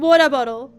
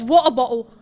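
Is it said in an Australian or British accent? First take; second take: Australian; British. First: It is said in an Australian accent. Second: It is said in a British accent.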